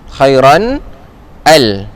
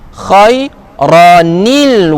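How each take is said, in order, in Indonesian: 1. Akhiran -an tetap dibaca sebelum al. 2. Bunyi 'ni' tambahan menyambung ke kata berikutnya. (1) "ada orang masih kekalkan lagi dia khairan" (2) "ditambah pula nun yang berbaris bawah"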